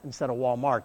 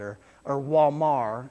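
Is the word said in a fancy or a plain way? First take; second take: plain; fancy. First: The word is said in a plain, ordinary way. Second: The word is said in a fancy, posh way. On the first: The store sounds ordinary. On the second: The store sounds expensive.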